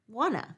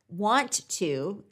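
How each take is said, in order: First: The words are merged into one reduced word. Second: Both words are pronounced fully and separately.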